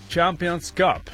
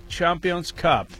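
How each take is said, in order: Both takes have the same delivery.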